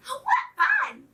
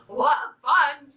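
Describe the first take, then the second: First: Tiny, very high squeak; excited baby chick voice, pitched way up. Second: Louder, mildly excited hen; merry mother hen, only lightly voiced; merry hen's cry. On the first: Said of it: "squeaked the little chicks". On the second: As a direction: cry out merrily, a bit louder. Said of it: "she cried". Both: A narrator's reading.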